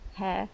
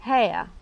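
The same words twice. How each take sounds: First: The vowel is one steady sound. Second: The vowel glides between two sounds. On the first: "I don't say hair" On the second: "which is a diphthong"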